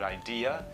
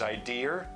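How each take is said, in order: First: The word ends in a vowel with no R. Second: The word ends with an added R sound. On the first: "someone might put the R on the end of the word idea" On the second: "where it becomes idea"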